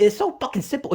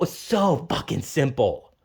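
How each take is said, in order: First: Higher, sing-song mock of "simple". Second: Lower, slow, flat-toned "simple"; low sarcastic. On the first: Parodying family, saying it up high in mockery. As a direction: sneer it up high like they do. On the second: Retold or imitated. Mocking family, now slow and low with contempt. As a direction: drop it down and drag it out with contempt. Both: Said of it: "I'm getting very fucking heated".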